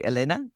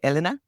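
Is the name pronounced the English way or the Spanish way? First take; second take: Spanish; English. First: The name is said with a Spanish pronunciation. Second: The name is said with an English pronunciation. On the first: This is how the speaker says it. "which is the Spanish pronunciation" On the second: This is how some other people say it. "Some people say Elena"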